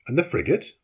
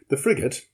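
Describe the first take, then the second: First: "And the frigate?" asked with rising tune; anxious question. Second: "The frigate" answered with falling tune; reply. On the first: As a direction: lift "frigate" upward as a question. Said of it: "I asked". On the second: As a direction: let "frigate" drop, as an answer. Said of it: "replied Conseil". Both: A narrator's reading.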